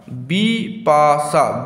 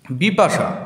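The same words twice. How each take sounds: First: "Bipasha" very slowly as বি, পা, শা; three long separate beats in "Bipasha"; teacher sounding out বি–পা–শা; split into syllables. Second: Said in the usual way. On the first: Shown as a demonstration. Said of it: "তিনটি অক্ষর". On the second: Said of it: "Bipasha তিনটি অক্ষর".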